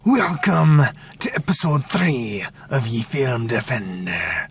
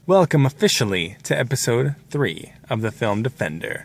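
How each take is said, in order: First: It is said in a put-on pirate voice. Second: It is said in his normal speaking voice.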